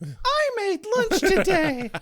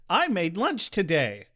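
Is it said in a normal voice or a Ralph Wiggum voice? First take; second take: Ralph Wiggum; normal voice. First: It is said in a Ralph Wiggum voice. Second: It is said in a plain reading voice.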